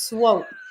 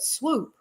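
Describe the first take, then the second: First: The vowel is a long 'oh' sound. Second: The vowel is a long 'oo' sound. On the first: The speaker calls it right. "it's it's swope" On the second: The speaker calls it wrong. "A lot of people pronounce it swoop"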